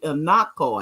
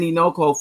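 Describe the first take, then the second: First: The middle vowel is an 'a' sound. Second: The middle vowel is an 'o' sound. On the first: The speaker calls it right. "it's really Inako" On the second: The speaker calls it wrong. "I've been saying Inoko forever"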